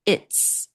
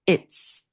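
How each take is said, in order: First: It is contracted into one short syllable. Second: The same.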